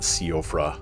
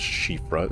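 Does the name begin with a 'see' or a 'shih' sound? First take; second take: see; shih. First: The name begins with a 'see-oh' sound. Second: The name begins with a 'shih' sound. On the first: The speaker calls it wrong. "It's not Siofra or anything like that" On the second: The speaker calls it right. "It is pronounced Shifra"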